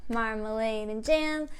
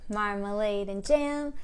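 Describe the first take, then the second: Both takes have the same delivery.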